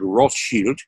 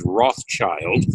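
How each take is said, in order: First: The name is given its German pronunciation. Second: The name is given an anglicized pronunciation. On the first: This is the original form meaning red shield. The speaker calls it right. "derived from the German word" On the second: This is the common but mistaken pronunciation. The speaker calls it wrong. "usually mispronounced as"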